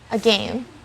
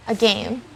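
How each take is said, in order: First: The second syllable rhymes with gain. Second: The same.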